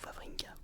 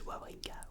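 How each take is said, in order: First: The name begins with a V sound. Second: The name begins with a W sound.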